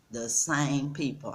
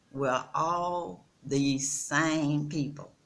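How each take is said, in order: First: Said in the usual way. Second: We're all the same people, slow with weight on all; slow emphasis. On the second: Real, not acted. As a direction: lean on all and drag each word.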